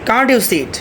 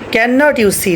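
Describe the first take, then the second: First: The negative is shortened to 'can't'. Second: The negative is said fully as 'cannot'.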